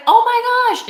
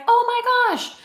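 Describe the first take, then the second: First: High, loud delighted gasp of recognition; surprised exclamation. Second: Said in the usual way. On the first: Retold or imitated. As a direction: blurt it out, thrilled to see her. Running into an old friend.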